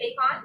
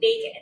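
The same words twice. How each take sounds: First: The second syllable has a full, clear vowel. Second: The second syllable has a lazy schwa vowel. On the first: The speaker calls it wrong. "We don't say bacon" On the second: The speaker calls it right. "we say bacon. It's that lazy sound"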